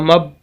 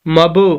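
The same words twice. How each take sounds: First: The final b is cut off with no release. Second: The final b is released with a slight bounce. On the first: The speaker calls it wrong. "अगर कलकला ना पढ़े ... आवाज़ को वहीं रोक देंगे, जो कि दुरुस्त नहीं है" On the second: The speaker calls it right. "जब कलकला करके पढ़ेंगे"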